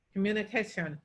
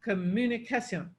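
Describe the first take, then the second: First: Communication with its normal English stress; stress demo. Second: Communication with the stress moved; stress demo. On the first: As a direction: say communication the usual way. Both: Shown as a demonstration. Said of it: "we would say".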